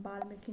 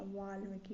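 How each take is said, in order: First: वाल्मीकि starting with b; wrong pronunciation. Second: वाल्मीकि starting with v; correct pronunciation. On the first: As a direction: say वाल्मीकि as baalmeeki. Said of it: "नहीं होता". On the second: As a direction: round the lips into वाल्मीकि. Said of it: "वा वाला होगा". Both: Shown as a demonstration.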